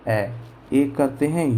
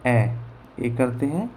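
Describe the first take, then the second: No difference in how they are said.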